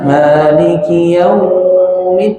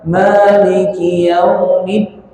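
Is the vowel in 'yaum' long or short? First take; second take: long; short. First: The vowel in 'yaum' is drawn out long. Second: The vowel in 'yaum' is kept short. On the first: The speaker calls it wrong. "dia nggak boleh dipanjangkan. Jangan Maliki yaumid, ini nggak boleh" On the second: The speaker calls it right. "Tapi satu harakat"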